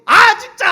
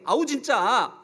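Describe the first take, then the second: First: It is said loudly and forcefully. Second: It is said softly and weakly.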